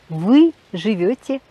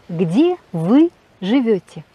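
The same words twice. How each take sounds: First: Said in the usual way. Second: "Где вы живёте?" said slowly, stress on "вы", falling at the end; slow falling question tune on "Где вы живёте?"; question intonation. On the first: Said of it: "avec l'intonation". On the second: Shown as a demonstration. Teacher models a polite Russian question for learners, slow falling tune. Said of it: "Et avec l'intonation, euh, interrogative".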